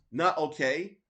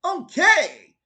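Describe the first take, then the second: First: Said in the usual way. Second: "Okay" shouted high and loud, Japanese style; imitating Terry. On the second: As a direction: bark out "Okay" like a Japanese voice actor. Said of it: "and he's like".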